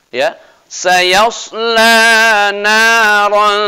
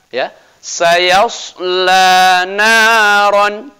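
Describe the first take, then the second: Both takes have the same delivery.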